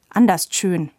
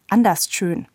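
First: The phrase is slurred and mumbled. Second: The phrase is articulated clearly.

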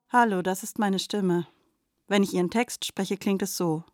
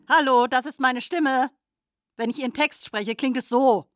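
First: It is said in a sad tone. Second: It is said in an angry tone.

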